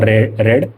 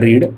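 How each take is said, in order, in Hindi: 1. स्वर छोटा है, 'red' जैसा। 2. स्वर लंबा है, 'reed' जैसा। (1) "उच्चारण रेड हम करते हैं" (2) "रीड का वी वन क्या होगा"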